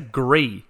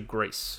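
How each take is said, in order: First: The word is said with a French pronunciation. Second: The word is said like the country Greece. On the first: The speaker calls it wrong. "the French pronunciation" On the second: The speaker calls it right. "It's like the country"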